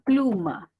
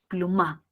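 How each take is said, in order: First: The stress is on the first syllable. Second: The stress is on the last syllable. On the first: The speaker calls it right. "Tiene que identificar la sílaba tónica. Plum" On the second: The speaker calls it wrong. "Tiene que moverla"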